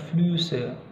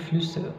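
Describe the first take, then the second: First: The first vowel is drawn out long. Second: The first vowel is clipped short. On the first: The speaker calls it wrong. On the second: The speaker calls it right. "Dia cepat gitu"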